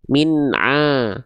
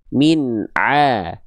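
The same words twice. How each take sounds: First: The ain sound goes through the nose. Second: The ain sound does not go through the nose. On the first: The speaker calls it wrong. "karena yang kedua tadi huruf ainnya masih masuk hidung" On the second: The speaker calls it right. "harusnya min a, Jadi nggak ada masuk hidungnya ya"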